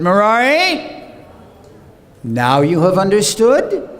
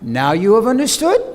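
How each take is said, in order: First: A searching question, rising at the end; questioning rise. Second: Understood rises at the end; rising question, emphasis on understood. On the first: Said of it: "there's a question mark at the end with the voice going up". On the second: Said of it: "a question mark at the end with the voice going up". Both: Shown as a demonstration.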